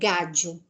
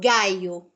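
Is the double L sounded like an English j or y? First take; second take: j; y. First: The double L sounds like an English j. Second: The double L sounds like an English y. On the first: This is how it is said in Argentina. "Se fosse na Argentina, é um som de já" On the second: This is how it is said in Spain. "como se fosse um I"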